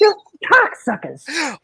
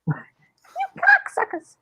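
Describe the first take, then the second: First: Slow, drawn-out insult; movie quote. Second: Very high, slow chipmunk squeak. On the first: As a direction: quote the clip straight. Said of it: "I took that clip". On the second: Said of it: "I made it sound like a chipmunk". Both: Retold or imitated.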